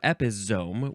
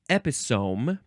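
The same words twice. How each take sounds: First: The middle consonant is a buzzing Z sound. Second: The middle consonant is a hissing S sound.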